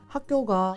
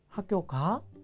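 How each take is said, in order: First: It uses the Gyeongju dialect pitch pattern. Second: It uses the standard Korean pitch pattern. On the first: It asks whether the listener is at school. "학교가 이러면 너 학교에 있니 이런 뜻인 거죠" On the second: It asks whether the listener is going to school. "표준어권에서는 학교 가 이렇게 학교 가니 이런 의미를 쓰는데"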